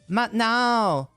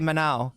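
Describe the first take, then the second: First: The second vowel is said long. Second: The second vowel is said short. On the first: The speaker calls it right. "that second vowel is like a long vowel" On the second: The speaker calls it wrong. "you can't just say Manao"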